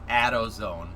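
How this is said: It is said with a regional Michigan accent. Someone else says it this way. "She says AutoZone"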